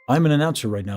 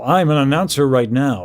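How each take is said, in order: First: The vowels are short and quicker. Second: The vowels are drawn out and slower.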